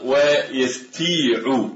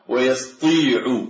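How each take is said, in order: First: "ويستيع" drawn out slowly with a plain ت; light ت. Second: "ويستطيع" drawn out as yas-Tii'u, heavy ط; slow "ويستطيع" down, only a dark ط; emphatic ط. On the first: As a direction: stretch "ويستيع", keeping the ت light. (نطق "ويستيع" ببطء بتاء مرققة) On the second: (نطق "ويستطيع" يسطيع بطاء مفخمة) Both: Shown as a demonstration. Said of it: "نقلب الطاء إلى تاء".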